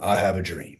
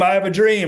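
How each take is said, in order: First: It is said dropped back down, lower. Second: It is said at a built-up, raised level.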